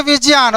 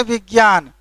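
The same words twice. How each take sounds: First: First विज्ञान said "vijyan", with a j; written-form pronunciation. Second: Second विज्ञान said "vigyan", with a g; read-form pronunciation. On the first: Teacher contrasting writing with reading, careful jy in विज्ञान. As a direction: sound विज्ञान as spelt, j plus ya. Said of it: "माने लिखेंगे विज्ञान". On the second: Teacher contrasting reading with writing, everyday gy in विज्ञान. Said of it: "और पढ़ेंगे विज्ञान". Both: Shown as a demonstration.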